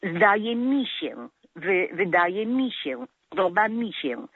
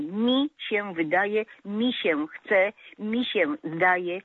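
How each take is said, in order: First: „mi” tucked in the middle, „Zdaje mi się”, said slowly; slow and clear, „wydaje mi się” with unstressed „mi”; correct form. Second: „mi” pulled out slow at the front, „Mi się wydaje”; wrong form stressed. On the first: (spokojnie, „mi” w środku: „podoba mi się”) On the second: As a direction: drag out the wrong „mi” at the start, „mi się zdaje”. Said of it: "„mi” na początku wyrazu". (powoli, z naciskiem na „mi” na początku) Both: Shown as a demonstration.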